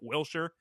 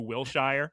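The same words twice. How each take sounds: First: The stress is on the first syllable. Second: The stress is on the second syllable. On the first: A local says it. The speaker calls it right. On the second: Someone not from the city says it. The speaker calls it wrong.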